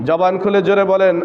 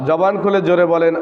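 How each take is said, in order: The two takes are said the same way.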